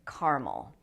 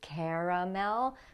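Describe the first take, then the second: First: The word is said with two syllables. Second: The word is said with three syllables. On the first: "we drop the second syllable and we say just caramel" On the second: "spelled as if it had three syllables"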